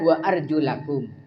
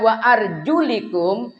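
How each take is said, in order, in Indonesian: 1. Vokal setelah arjul itu a. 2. Vokal setelah arjul itu i. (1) "yang benar wa arjulakum, maka wajib dibasuh" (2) "Kalau dibaca wa arjulikum, maka kaki wajib diusap saja"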